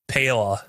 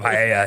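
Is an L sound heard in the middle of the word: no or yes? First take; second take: Yes; No. First: The double L is said as L. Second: The double L is not said as L. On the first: The speaker is mocking someone who says it clumsily. The speaker calls it wrong. "he's gonna pronounce the L's" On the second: This is how the word should be said. The speaker calls it right. "He's not even gonna say it paella"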